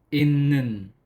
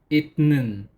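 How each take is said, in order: First: The first syllable ends in an n sound. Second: The first syllable ends in a t sound. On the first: The speaker calls it right. "naging innen" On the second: The speaker calls it wrong. "instead of itnen"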